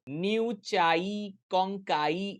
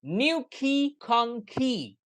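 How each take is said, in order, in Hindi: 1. शब्दों का अंत 'eye' साउंड से होता है। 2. शब्दों का अंत 'ee' साउंड से होता है। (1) "ऐसे नहीं" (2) "जो साउंड होगा वो होगा न्यू खी और खोंखी"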